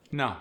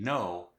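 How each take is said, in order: First: South African "No" with an aw-like vowel; South African accent. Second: Said in the usual way. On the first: Shown as a demonstration. Teaching the South African long O, accented "No". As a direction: open "No" towards ah, South African. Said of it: "gets the ah sound". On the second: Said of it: "The long O sound".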